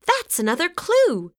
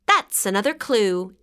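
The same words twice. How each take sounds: First: Much higher excited shout. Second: A light exclaim close to plain reading; note the clue with only mild excitement. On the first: Sam to Violet finding a clue, excited high shout. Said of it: "shouted Sam". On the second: Violet to Sam at the beehive, understated exclaim. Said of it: "exclaimed Violet". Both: A narrator's reading.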